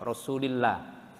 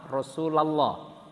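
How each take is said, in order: First: The syllable before 'llah' has an 'i' vowel. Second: The syllable before 'llah' has an 'a' vowel. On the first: The word follows a preposition. "lamnya Rasul itu menjadi kasroh" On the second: The word is the object of the verb. "maka bunyinya la"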